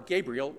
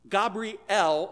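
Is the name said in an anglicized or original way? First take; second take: Anglicized; Original. First: The name is said in a modern English way. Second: The name is said in a non-English way.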